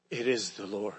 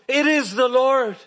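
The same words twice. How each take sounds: First: Almost whispered recognition, much softer and lower; hushed awe. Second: Said in the usual way. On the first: Acted. Disciple telling Peter it is Jesus, hushed and awed. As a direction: breathe it out in quiet wonder.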